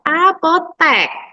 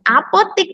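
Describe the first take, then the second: First: The last syllable has an E vowel. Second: The last syllable has an I vowel. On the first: The speaker calls it right. "yang baku adalah apotek menggunakan huruf E" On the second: The speaker calls it wrong. "apotik itu tidak baku"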